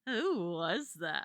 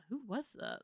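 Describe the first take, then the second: First: Slow, low dreamy question; smitten wonder. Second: Said in the usual way. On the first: Acted. Smitten sidekick asks about the handsome stranger, slow and dreamy. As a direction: draw out WHO and THAT as if swooning. Smitten take, then corrects to casual.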